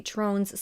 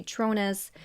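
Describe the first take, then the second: First: "Trones" as a single syllable, rhyming with bones; one-syllable Trones. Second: "Tronas" in two syllables, TRONE-us. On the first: Narrator showing how some in the courtroom say the surname, "Trones" as one syllable. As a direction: say "Trones" with a silent e. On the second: Narrator showing the other courtroom pronunciation of the surname, "Tronas" as TRONE-us. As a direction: add an unstressed "us" ending to "Tronas". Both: Shown as a demonstration. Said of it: "I have seen pronounced differently".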